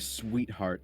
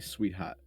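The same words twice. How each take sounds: First: The R sound is clearly pronounced. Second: The R sound is dropped, Boston style. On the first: This is how other people say it. "I don't say sweetheart" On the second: This is how the speaker says it. "I say sweetheart"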